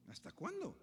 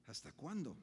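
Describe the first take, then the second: First: ¿Hasta cuándo? cried out high; anguished cry. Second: Said in the usual way. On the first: Shown as a demonstration.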